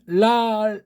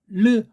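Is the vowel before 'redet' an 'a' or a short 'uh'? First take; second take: a; uh. First: The first syllable has an open 'a' vowel. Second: The first syllable has a short 'uh' vowel. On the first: "여긴 모음부어가 아라고 하는 것이잖아요" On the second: "이걸 르, 레데트 하면"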